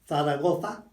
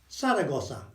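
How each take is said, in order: First: The z letters are sounded as th. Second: The z letters are sounded as s. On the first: "I would say th for Zaragoza" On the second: "a s sound"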